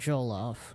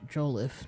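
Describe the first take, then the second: First: The second syllable has an 'o' sound. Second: The second syllable has an 'i' sound. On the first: The speaker calls it wrong. "not Joloff" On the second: The speaker calls it right. "Joliffe, not Joloff"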